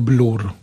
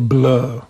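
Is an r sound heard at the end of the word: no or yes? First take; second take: Yes; No. First: The word ends with an r sound. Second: The word ends without an r sound. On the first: The speaker calls it wrong. "a nie Blur" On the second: The speaker calls it right. "Mówi się Blur ... Bez ry"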